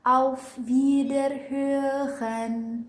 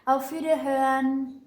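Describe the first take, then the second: First: It is said slowly and carefully. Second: It is said quickly and blurred. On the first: "Kalau misalkan dilambatin gini" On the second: "Tapi kalau misalkan dicepetin"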